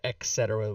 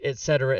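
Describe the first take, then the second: First: The first word ends with a K sound. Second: The first word ends with a T sound. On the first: The speaker calls it wrong. "with the K sound" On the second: The speaker calls it right. "I do say it right"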